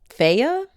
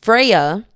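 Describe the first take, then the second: First: Feyre said as FAY-ruh with a questioning rise; unsure name. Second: Freya said FRAY-uh, firm; settled name. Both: Shown as a demonstration. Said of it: "my brain instantly went Farah".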